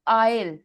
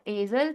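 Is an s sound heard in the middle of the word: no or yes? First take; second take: no; yes. First: No s sound is pronounced in the middle. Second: An s sound is pronounced in the middle. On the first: The speaker calls it right. "एस is silent" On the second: The speaker calls it wrong. "This is not एजल"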